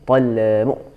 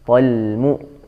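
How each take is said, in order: First: The L is released before the M starts. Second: The L is held until the M starts. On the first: The speaker calls it wrong. "bukan talmu talmu" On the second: The speaker calls it right. "jangan dilepas dulu sebelum mu keluar"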